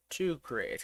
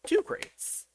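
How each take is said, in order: First: Said in the usual way. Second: Silly squeaky high Two crates. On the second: Pretend. Repeating the name playfully.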